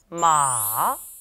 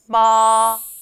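First: The pitch goes down low and is drawn out. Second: The pitch stays high and level, held long. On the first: "3성은요, 쭉 내려옵니다" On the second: "먼저 1성을 살펴보면요, 높은 음을 길게 이어줍니다"

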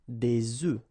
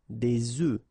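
The two takes are said the same way.

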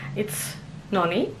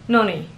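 First: The stress is on the second syllable. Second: The stress is on the first syllable.

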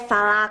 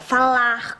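First: The word ends without any R sound. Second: The word ends with an audible R sound. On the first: The speaker calls it wrong. "E não" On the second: The speaker calls it right. "Com R no final"

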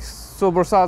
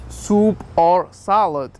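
First: The words are run together quickly into one. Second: The words are said separately and clearly.

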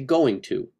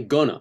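First: The words are said in full as 'going to'. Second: The words are reduced to 'gonna'. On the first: The speaker calls it right. "I say going to" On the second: The speaker calls it wrong. "I don't say gonna"

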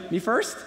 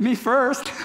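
First: It is said like a question, rising. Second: It is said in a silly, clowning manner. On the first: The speaker asks whether to go ahead. "Or you could say it like a question" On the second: The speaker jokes about going ahead. "if you're that, you know, class clown"

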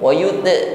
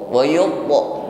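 First: The t sound is thin and light. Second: The t sound is thick and heavy. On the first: The speaker calls it wrong. "bukan wayute" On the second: The speaker calls it right. "po adalah huruf isti'la tebal"

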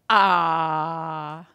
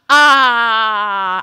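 First: The exclamation is said fairly quietly. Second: The exclamation is said loudly with odd inflection. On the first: The speaker calls it wrong. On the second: The speaker calls it right.

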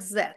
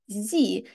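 First: The letter is named 'zed', non-American style. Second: The letter is named 'zee', American style. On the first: "а ви чули цю літеру як Z" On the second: "в Америці називають її насправді Зі"

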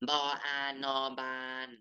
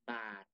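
First: The final syllable has a level mid tone. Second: The final syllable has a low tone.

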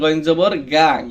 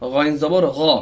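First: The final vowel is a thin, open 'aa'. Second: The final vowel is a full, rounded 'o'-like sound. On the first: The speaker calls it wrong. "গা হবে না, গা কোনো উচ্চারণ হয় না" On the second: The speaker calls it right.

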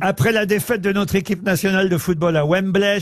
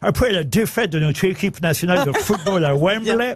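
First: It is read in a plain French accent. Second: It is read with a put-on British accent. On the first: "je la fais normalement" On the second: "je pourrais le faire avec l'accent britannique"

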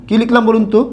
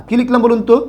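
No difference in how they are said.

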